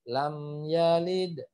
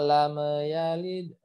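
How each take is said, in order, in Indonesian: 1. M pada lam ditahan dan berhenti dengan bersih. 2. M pada lam memantul dan bergema. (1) "lam yalid harus terhenti" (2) "mim sukun tidak boleh dipantulkan. Jadi, jangan"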